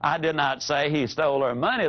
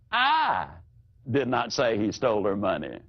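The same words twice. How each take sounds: First: It is said flatly, with no word singled out. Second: One word is given extra emphasis. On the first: It is a plain statement of fact. "that's just a statement of fact" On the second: The sentence takes on a different meaning. "alter it slightly"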